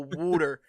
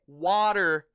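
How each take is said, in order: First: It is said in a New Jersey accent. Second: It is said in a standard accent.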